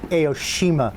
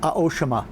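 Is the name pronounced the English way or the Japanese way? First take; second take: English; Japanese. First: The name is said with English pronunciation. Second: The name is said with Japanese pronunciation. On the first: "the English pronunciation" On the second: "in Japan it is"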